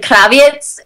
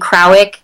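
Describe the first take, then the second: First: The surname is pronounced the Polish way. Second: The surname is pronounced in an anglicized way. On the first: This is how it is said in Poland. "The correct way to say it um, is actually Kraviec" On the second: This is how people at school say it. "in school, people just know me as [name]"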